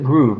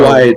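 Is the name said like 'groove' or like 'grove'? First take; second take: groove; grove. First: The vowel sounds like 'oo' in 'moon'. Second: The vowel sounds like 'o' in 'stove'. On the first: The speaker calls it wrong. "you always pronounce it Groove" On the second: The speaker calls it right. "I had always thought it was Grove"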